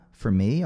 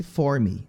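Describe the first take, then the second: First: "For" reduced to a quick "fer" before "me"; weak FOR. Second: "for" said full and stressed, like "four"; wrong stressed FOR. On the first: Teacher corrects the learners, very weak "for". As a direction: swallow "For", stress "me". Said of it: "ele é bem fraquinho". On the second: Teacher shows learners what not to do, stressed "for". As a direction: lean on "for" in "for me". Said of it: "não vamos ter ênfase nesse for me". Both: Shown as a demonstration.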